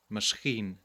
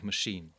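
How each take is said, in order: First: The middle has an s-ch cluster instead of sh. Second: The middle has a single plain sh sound. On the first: This is how heavily accented speakers say it. "In a heavy accent in English, you would indeed hear people simply saying" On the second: This is the standard English pronunciation. "instead of machine"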